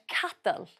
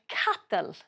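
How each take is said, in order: Both takes have the same delivery.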